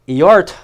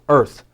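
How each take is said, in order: First: It is sounded as two parts, 'ee' plus 'art'. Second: It is said as one syllable, 'erth'. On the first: The speaker calls it wrong. "It's not E-art" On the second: The speaker calls it right. "it's earth"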